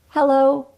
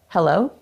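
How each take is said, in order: First: It is spoken while breathing in. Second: It is spoken while breathing out.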